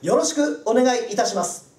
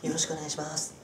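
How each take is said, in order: First: It is said loudly and slowly, sounding confident. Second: It is said quietly and hurriedly, sounding nervous.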